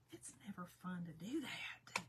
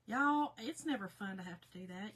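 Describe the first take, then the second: First: Hushed confiding whisper. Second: Said in the usual way. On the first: Real, not acted. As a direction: whisper it like a confession.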